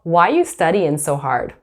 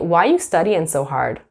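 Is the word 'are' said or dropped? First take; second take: dropped; dropped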